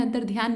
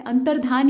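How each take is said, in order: First: अंतर्ध्यान said with dhyaan, an added y glide; अंतर्ध्यान with the y sound in dhyaan; wrong pronunciation. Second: अंतर्धान said plainly as an-tar-dhaan, no y sound; अंतर्धान with a clean dhaan ending; correct pronunciation. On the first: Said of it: "अंतर्ध्यान नहीं होता है". (अंतर्ध्यान का गलत उच्चारण, ध्यान के साथ) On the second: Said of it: "अंतर्धान ही होता है". (अंतर्धान का सही उच्चारण, धान बिना य के) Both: Shown as a demonstration.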